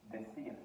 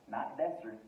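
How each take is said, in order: First: Decir, de plus a soft r; the correct take of decir, quiet. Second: Decir, wrong first vowel; the wrong take of decir; decir as the wrong form. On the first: Teacher gives students the right pronunciation of decir. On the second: Teacher shows students the wrong form of decir. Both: Shown as a demonstration.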